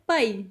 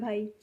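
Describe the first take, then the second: First: It is said forcefully, Punjabi style. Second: It is said softly and politely, Hindi style.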